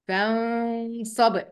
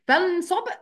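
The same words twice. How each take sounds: First: The n is hidden with a held nasal sound. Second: The n is pronounced fully and clearly. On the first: The speaker calls it right. "قلت إيه" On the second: The speaker calls it wrong. "ما قلتش فانصب"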